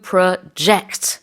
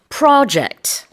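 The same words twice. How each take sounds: First: The stress is on the second syllable. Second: The stress is on the first syllable. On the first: It means to forecast or estimate. "with a stress on the jet" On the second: It means a planned piece of work. "The stress is on the first syllable"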